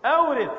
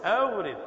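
First: أورث said higher and with force; emphatic answer. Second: Said in the usual way. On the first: Shown as a demonstration. Teacher confirming the imperative to students, emphatic. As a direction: land hard on أورث. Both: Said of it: "teacher repeating the answer".

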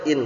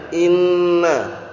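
First: "in" cut to one single n; "in" with no doubling and no final vowel; lightened, no tashdid. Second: "Inna" with a long, held double n; "Inna" drawn out on the nn, then open a; heavy doubled n. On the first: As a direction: say "in" short, ending on a plain n. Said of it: "Akhirnya diperingan". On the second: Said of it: "Tasdidnya itu yang berat". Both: Shown as a demonstration.

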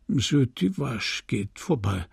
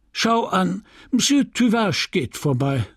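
First: "Monsieur Tuvache geht vorbei" echoed softer, toneless; mechanical repeat. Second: Higher, brightened small talk; forced cheerful remark. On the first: Numb widower echoing the apothecary like a machine. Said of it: "wiederholte wie eine Maschine". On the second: Apothecary distracting the widower, forced cheer. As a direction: chirp it to break the silence. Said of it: "Charles wiederholte wie eine Maschine". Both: A narrator's reading.

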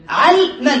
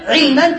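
First: علما said as ʿalman with a fatha on the ع; علما as ʿalman, the rule-based form; regular pattern. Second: علما said as ʿilman with a kasra on the ع; علما as ʿilman, the form the Arabs actually used; heard form. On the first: Teacher gives the rule-based form علما as ʿalman. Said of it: "الأصل المصدر القياسي علما". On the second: Teacher gives the attested form علما as ʿilman. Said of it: "لكن سمع علما". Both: Shown as a demonstration.

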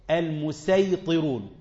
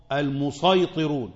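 First: المسيطرون said with a plain light س, slowly; pronounced with seen. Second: المسيطرون said with an emphatic ص, slowly; pronounced with sad. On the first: Teacher demonstrating the reading المسيطرون with a light س. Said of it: "بالسين الخالصة". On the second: Teacher demonstrating the reading المسيطرون with a heavy ص. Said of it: "يعني صاد صاد". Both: Shown as a demonstration.

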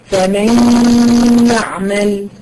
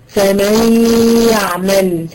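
First: فمن يعمل with the n nasalised into ya; correct ghunna reading. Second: فمن يعمل with no nasal hum on the n; imitating a wrong reading. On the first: Shown as a demonstration. Teacher showing the right reading, with ghunna. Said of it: "هو أدغام بغنة، تقول إيه؟". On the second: Teacher imitating a student's mistake, no ghunna. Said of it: "هي أدغمت لكن ما جابتش غنة".

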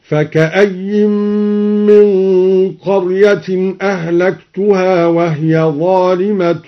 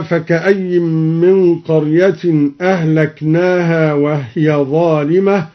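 First: Slow chant, أهلكتها as "ahlaktuhā"; recitation with ta. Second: Said in the usual way. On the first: Shown as a demonstration. Teacher demonstrating al-Duri's reading, slow chant with ت in أهلكتها. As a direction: chant slowly, saying "tu" in أهلكتها. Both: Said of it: "قرأ الدوري بالتاء".

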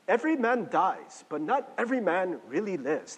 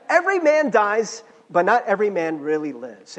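First: Put-on half-hearted, clumsy Scottish accent; bad Scottish accent. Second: Emphatic restated quote. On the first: Preacher quoting Braveheart to listeners, in a bad Scottish accent. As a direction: quote it in a poorly faked Scottish accent. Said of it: "That's my Scottish accent. It's terrible". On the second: Acted. Preacher repeating the movie quote after apologising for his accent, loud and emphatic. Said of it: "I'm really bad at accents, sorry".

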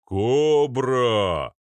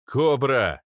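First: Long booming bellow; loud drawn-out giant's call; Arnold. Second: Loud, higher, short call; urgent calling out; shouted name. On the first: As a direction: hoot it like a locomotive horn. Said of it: "Его бас разнёсся по коридору, как гудок локомотива". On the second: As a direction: yell for someone across a crowd. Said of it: "подхватил Арнольд". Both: A narrator's reading.

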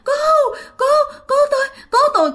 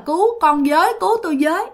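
First: Very high, choked, sobbing cries; broken cry for help. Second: Said in the usual way. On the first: Retold or imitated. Dreamer unable to finish the cry, high choked sobbing shout. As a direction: gasp out broken pleas. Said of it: "Không thể nào la được mà cứ". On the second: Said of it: "không thể nào mà la thành một cái câu".

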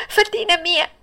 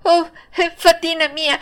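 First: Very high, longing call; joyful cry, higher still. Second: High, eager call to the fairy; joyful cry. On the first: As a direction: stretch the call up toward her. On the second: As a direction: reach out with the voice. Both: Acted. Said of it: "si provò a gridare".

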